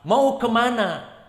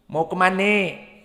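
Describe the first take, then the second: First: It is said in standard formal Indonesian. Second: It is said in a Betawi dialect accent. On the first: "bahasa Indonesia yang fushah" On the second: "apa dialeknya orang Betawi?"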